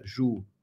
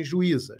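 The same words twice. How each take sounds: First: "Ju-i-za" in three beats with long pauses, low and soft; split into syllables. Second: Said in the usual way. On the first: Shown as a demonstration. Teacher helping students think about the word, "Ju-i-za" syllable by syllable. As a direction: separate every syllable of "Ju-i-za". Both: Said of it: "Essa é a separação silábica".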